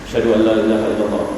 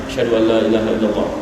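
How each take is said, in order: Both takes have the same delivery.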